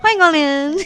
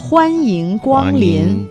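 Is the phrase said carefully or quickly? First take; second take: quickly; carefully. First: It is said very fast with syllables blurred. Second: It is said slowly with every syllable clear. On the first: "Something like that, very fast" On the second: "that's the very articulate version"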